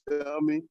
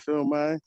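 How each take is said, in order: First: The second syllable sounds like 'me'. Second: The second syllable sounds like 'my'. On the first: "you might say "film me,"" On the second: "you might say "film my.""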